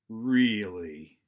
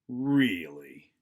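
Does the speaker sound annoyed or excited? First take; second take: annoyed; annoyed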